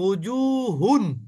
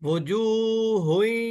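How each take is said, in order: First: The word ends with a clear n sound. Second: The n merges into a nasal y sound. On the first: The word is read on its own. "হুন পড়েছি" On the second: The word is joined to the next word. "গুন্না সহ মিলাবে"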